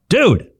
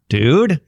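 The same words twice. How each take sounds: First: It is said as an exclamation, falling. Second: It is said as a question, rising.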